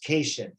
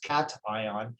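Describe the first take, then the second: First: The first syllable does not sound like 'cat'. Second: The first syllable sounds like 'cat'. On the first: The speaker calls it wrong. "It's not pronounced cation" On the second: The speaker calls it right. "like kitty kitty"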